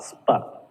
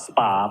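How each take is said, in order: First: The syllable has a reduced schwa vowel. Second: The syllable has a full 'ah' vowel. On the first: The speaker calls it right. "It's a schwa sound" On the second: The speaker calls it wrong. "not spa"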